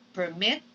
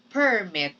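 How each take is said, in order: First: "permit" stressed on the second syllable, per-MIT. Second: "permit" stressed on the first syllable, PER-mit. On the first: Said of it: "You see the difference". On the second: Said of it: "When I say". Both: Shown as a demonstration.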